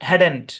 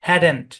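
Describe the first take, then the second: No difference in how they are said.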